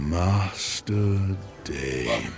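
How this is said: It is said in a sexy, seductive way.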